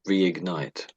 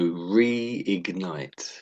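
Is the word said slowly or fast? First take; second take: fast; slowly. First: The word is said faster. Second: The word is said slowly.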